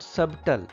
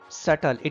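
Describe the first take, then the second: First: The B sound is pronounced in the middle. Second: The B sound is not pronounced at all. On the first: The speaker calls it wrong. "it is not subtle" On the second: The speaker calls it right. "B is silent here"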